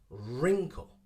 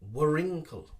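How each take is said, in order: First: The W sound is silent at the start. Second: The W sound is pronounced at the start. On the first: The speaker calls it right. "Ignore the W sound and start with the R" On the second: The speaker calls it wrong. "Many people say wrinkle"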